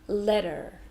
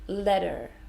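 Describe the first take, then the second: First: The T sounds like D and R is heard. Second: The same.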